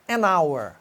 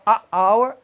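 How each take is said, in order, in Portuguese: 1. Um som de n liga o artigo à palavra. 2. Nenhum som de n fica entre o artigo e a palavra. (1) "Então você vai falar an hour" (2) "Se você falar a hour, ... ele fica com o som esquisito"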